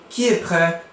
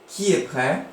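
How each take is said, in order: No difference in how they are said.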